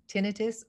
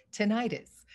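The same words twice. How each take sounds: First: Tinnitus as TIN-ih-tus; first-syllable stress. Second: Tinnitus as tuh-NIGH-tus; second-syllable stress. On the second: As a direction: stress the middle of tinnitus with a long i, like "eye". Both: Shown as a demonstration. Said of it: "people have always pronounced it".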